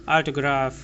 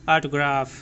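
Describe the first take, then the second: No difference in how they are said.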